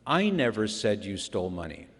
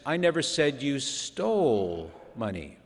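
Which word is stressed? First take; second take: I; stole. First: The stress is on the word I. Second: The stress is on the word stole.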